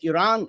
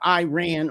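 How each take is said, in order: First: It is said with a native-like pronunciation. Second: It is said with an Americanized pronunciation. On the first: The speaker calls it right. "it's Iran and Iraq" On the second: The speaker calls it wrong. "it's not Iran or Iraq"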